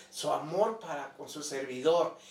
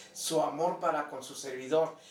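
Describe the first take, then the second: No difference in how they are said.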